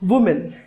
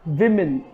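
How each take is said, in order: First: The first vowel sounds like 'oo' in 'wood'. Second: The first vowel sounds like 'i' in 'win'. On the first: The speaker calls it wrong. "Often मिसप्रोनाउंस्ड as" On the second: The speaker calls it right. "The correct pronunciation is"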